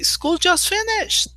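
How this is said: It is said in a happy, excited tone. The end of school is good news. "And everybody says, wow, yes"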